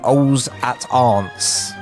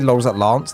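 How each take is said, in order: First: The L sounds are left silent. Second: The L sounds are clearly pronounced. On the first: The speaker calls it right. "it's actually silent L" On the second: The speaker calls it wrong. "They've just got it wrong"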